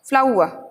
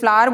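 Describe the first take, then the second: First: The word ends in a vowel without r. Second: The word ends with a clear r sound. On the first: The speaker calls it right. "इसे सही बोलना है हमें फ्लाउआ" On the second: The speaker calls it wrong. "कई लोग इसे फ्लावर बोलते हैं"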